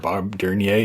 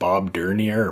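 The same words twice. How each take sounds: First: The name is said with a French accent. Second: The name is said with an English accent.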